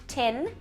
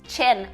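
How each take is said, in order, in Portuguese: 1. A palavra começa com som de t. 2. A palavra começa com som de ch. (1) "eu tô fazendo um T" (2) "a gente acaba falando chin"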